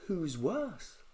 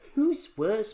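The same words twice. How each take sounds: First: It is said in a plain, ordinary voice. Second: It is said in a strongly nasal voice. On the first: The speaker calls it wrong. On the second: The speaker calls it right.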